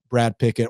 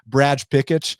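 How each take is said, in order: First: It is said with a plain English accent. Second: It is said with a Brazilian accent.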